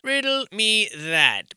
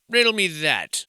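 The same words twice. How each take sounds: First: "Riddle me that" said slower and higher; drawn out, higher riddle. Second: Said in the usual way. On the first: Shown as a demonstration. Challenging the builders, slow and raised.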